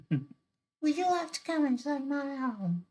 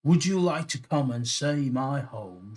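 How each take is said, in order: First: Very high put-on mermaid voice. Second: Higher, louder mermaid in attempted Irish; raised, lilting character question; mermaid's invitation. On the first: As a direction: squeak it out as a hammed-up mermaid. Redoes mermaid's line in character voice. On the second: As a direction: invite in a hammed-up Irish accent. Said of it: "she asked".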